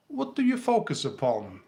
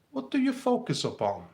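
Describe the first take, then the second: No difference in how they are said.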